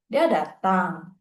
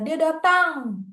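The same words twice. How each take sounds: First: The pitch rises at the end. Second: The pitch falls at the end. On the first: It is a yes or no question. "The pitch will rise at the end of datang" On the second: It is a statement. "The pitch will fall at the end of datang"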